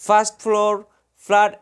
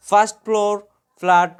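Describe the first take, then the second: No difference in how they are said.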